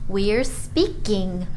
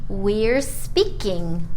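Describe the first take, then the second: No difference in how they are said.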